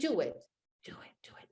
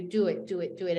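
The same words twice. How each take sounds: First: Urgent unvoiced whisper; a small inner voice whispering on. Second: Said in the usual way. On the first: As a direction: hiss it like a voice urging you on inside. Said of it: "Just, just a small voice". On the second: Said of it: "a small voice saying inside of you".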